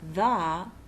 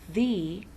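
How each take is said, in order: First: The word ends in an 'uh' vowel. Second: The word ends in an 'ee' vowel. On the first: It comes before a word starting with a consonant. "is used before all words that begin with a consonant" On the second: It comes before a word starting with a vowel. "The sounds like the when it comes before a word that begins with a vowel"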